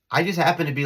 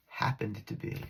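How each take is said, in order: First: Said in the usual way. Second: Softer, knowing repeat of happened; sly correction. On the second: Real, not acted. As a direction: lean on happened with a wink.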